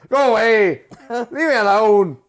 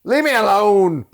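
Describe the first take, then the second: First: Mock yell. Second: High, loud whining cry of leave me alone; mock yell. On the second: Quoting a movie character, high loud whine. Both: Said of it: "He's like".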